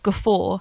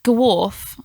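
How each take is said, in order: First: "guffaw" said guh-FOR, f in the middle; "guffaw" ending on an open "aw"; correct pronunciation. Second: "Gawrf" said guh-WORF, with a final f; "Gawrf" with a w in the middle and f at the end; own misreading. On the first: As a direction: repeat "guffaw" slowly as guh-FOR. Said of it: "instead of guffaw". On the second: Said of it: "I say gawrf instead of guffaw". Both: Shown as a demonstration.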